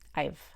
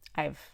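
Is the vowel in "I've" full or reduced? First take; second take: reduced; reduced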